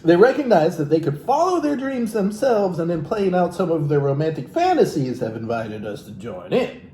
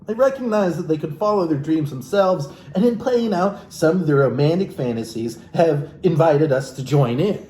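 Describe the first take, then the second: First: "follow" and "fantasies" pressed, a little higher; rereading in disbelief. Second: Said in the usual way. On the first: Shown as a demonstration. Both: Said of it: "Whoa, wait, what?".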